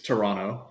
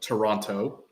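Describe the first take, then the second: First: The ending is softened into a no sound. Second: Every syllable is pronounced, including the final t. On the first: This is an in-between version. "the in between is Toronto, like the N O" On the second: This is how people who never spend time there say it. "they pronounce that last part"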